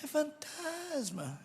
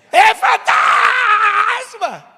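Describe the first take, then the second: First: Soft, high, drawn-out mock fear; deliberately weak scream of fright; feeble fake scream. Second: Very high, loud, long-held shriek; full-blast cry of fright; terrified scream. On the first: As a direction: barely voice a slow, half-hearted cry. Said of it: "É assim que alguém grita de medo, não?". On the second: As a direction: scream it with all your might, stretching the vowel. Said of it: "como que você gritaria?". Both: Shown as a demonstration.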